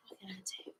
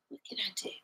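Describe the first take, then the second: First: Barely audible unvoiced whisper, fading away; fainter whisper. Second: Breathy unvoiced whisper to herself. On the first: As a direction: let it almost vanish. Repeats question, even fainter whisper. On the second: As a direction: ask it under your breath. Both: Real, not acted.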